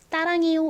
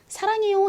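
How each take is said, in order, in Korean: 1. 이 단어는 된 tt 소리로 시작해요. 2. 이 단어는 분명한 s 소리로 시작해요. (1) "따랑해요 이렇게 한다거나 이런 뜨 발음을" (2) "사랑해요 해야 되는데"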